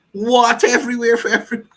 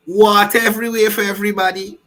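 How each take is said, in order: First: Laughing mock announcement. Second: Mock announcement. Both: Mocking the rally promise.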